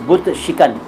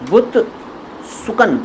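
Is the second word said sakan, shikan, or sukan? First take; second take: shikan; sukan. First: The second word is said as shikan. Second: The second word is said as sukan. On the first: The speaker calls it right. "सही शब्द है" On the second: The speaker calls it wrong. "ये दोनों गलत हैं"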